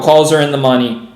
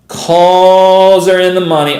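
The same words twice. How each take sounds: First: Said in the usual way. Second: Loud, drawn-out elated announcement; real excited call, slow and loud; excited exclamation. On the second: Real, not acted. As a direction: stretch the first word out loud in excitement. Repeats the news, excited.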